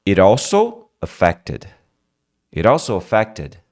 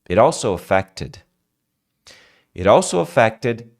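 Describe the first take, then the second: The two takes are said the same way.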